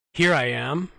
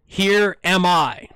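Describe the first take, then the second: First: Said in the usual way. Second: "Here am I" slow and loud, each word deliberate; deliberate, emphatic re-read; careful correction. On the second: Real, not acted. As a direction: spell out "Here am I" slowly and clearly, correcting the slip. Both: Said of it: "Sorry, "Here am I".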